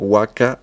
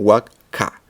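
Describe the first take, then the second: First: The k is pronounced in the ordinary way. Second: The k is pronounced with stronger, sharper force. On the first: The speaker calls it wrong. "no es como waka en el sentido normal" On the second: The speaker calls it right. "Es una K más pronunciada"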